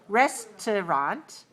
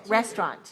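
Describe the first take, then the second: First: The word is said with three syllables. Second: The word is said with two syllables. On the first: "with a second syllable very weak, a schwa sound" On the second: "Two syllables"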